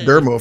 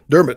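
First: The name ends without any t sound. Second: The name ends with a clear t sound. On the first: The speaker calls it wrong. "I don't know where I got Dermo from" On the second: The speaker calls it right. "It's Dermot"

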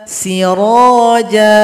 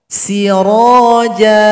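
No difference in how they are said.

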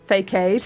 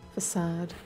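First: The first syllable sounds like the word 'fake'. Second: The first syllable is a soft 'fuh' sound. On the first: The speaker calls it wrong. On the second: The speaker calls it right.

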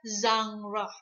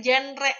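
First: It is said with the French-derived English sounds. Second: It is said as the Indonesian word is said. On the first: The speaker calls it right. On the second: The speaker calls it wrong. "seperti di Indonesia"

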